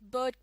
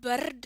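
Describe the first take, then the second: First: The R sound is silent after the vowel. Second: The R sound is pronounced after the vowel. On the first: The speaker calls it right. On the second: The speaker calls it wrong.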